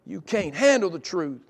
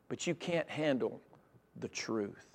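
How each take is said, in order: First: Lightly voiced movie quote; movie line. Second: Low, slow, hushed delivery; quiet retold warning. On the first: Preacher quoting a courtroom movie to the congregation, mild impression. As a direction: punch it a little, like a famous film line. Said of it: "makes us think of a movie". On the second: Preacher voicing the prophet's hard truth to the king, quiet. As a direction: let it drop softly, with a pause before the truth.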